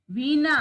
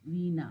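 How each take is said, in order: First: Veena said louder, with a strong clear onset; Veena announced loudly; emphatic model word. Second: Said in the usual way. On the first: Shown as a demonstration. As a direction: call out Veena firmly for the class. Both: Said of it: "शब्दों का उच्चारण करें".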